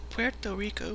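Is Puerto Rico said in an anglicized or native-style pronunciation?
native-style. It is pronounced in a native, non-anglicized way. Local listeners do not understand it. "people are like, what?"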